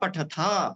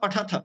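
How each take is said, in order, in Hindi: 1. शब्द 'th' के बाद एक स्वर पर समाप्त होता है। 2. शब्द बिना स्वर के 'th' ध्वनि पर समाप्त होता है। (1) "तो पूर्ण अ का उच्चारण करिए" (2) "नहीं बोलना है"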